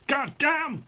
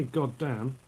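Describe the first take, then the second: First: Much higher, exaggerated American exclamation; American twang. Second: Said in the usual way. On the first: Shown as a demonstration. Man showing how you can't help it, exaggerated American twang. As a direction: ham up the American twang, pitched way up. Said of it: "an American twang". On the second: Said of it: "But you, you say".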